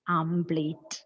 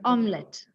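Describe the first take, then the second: First: The word sounds like 'amplate'. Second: The word sounds like 'omlet'. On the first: The speaker calls it wrong. "what is the mispronunciation?" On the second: The speaker calls it right. "The correct pronunciation"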